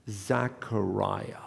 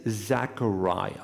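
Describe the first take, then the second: No difference in how they are said.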